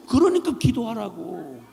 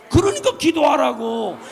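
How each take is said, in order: First: Said in the usual way. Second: 그러니까 기도하라고 shouted louder, falling hard; shouted command. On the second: Real, not acted. Preacher urging the congregation to pray, shouted command. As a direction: bark the call to prayer.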